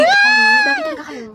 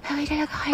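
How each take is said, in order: First: Crying shout. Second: The same question, much softer, barely heard; tiny voice. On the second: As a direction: mumble it almost inaudibly. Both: Acted. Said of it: "Sobrang hina ng boses".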